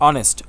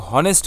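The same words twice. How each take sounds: First: অনেস্ট starting straight on the vowel, no h; silent h. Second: হনেস্ট with a voiced h at the start; wrong h sound. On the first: Teacher showing the right way, silent h. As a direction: say অনেস্ট with the h dropped. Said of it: "এটা হচ্ছে অনেস্ট". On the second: Teacher showing the wrong way, h pronounced. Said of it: "এটা কিন্তু হনেস্ট হচ্ছে না". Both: Shown as a demonstration.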